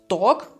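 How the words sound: The vowel sounds like an o. This is the Austrian dialect form. "dass wir statt a ein o sagen"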